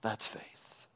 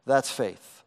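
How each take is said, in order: First: Hushed whisper, almost no voice. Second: Said in the usual way. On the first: Shown as a demonstration. Preacher repeating his point in a whisper. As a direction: lean in and whisper it.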